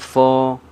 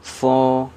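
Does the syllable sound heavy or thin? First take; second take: heavy; heavy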